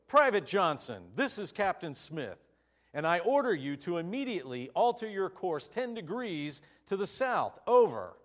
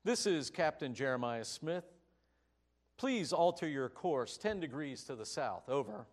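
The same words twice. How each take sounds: First: Loud, commanding shout over the radio; louder and louder to a booming Over; shouted order. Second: Said in the usual way. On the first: Acted. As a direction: bark the order like a furious captain. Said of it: "the captain shouted back over the radio".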